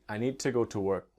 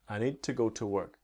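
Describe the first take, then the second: No difference in how they are said.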